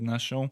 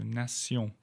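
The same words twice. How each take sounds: First: The ending sounds like 'shun'. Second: The ending sounds like 'see-on'. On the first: The speaker calls it wrong. "I must have said Nation" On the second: The speaker calls it right. "So nation"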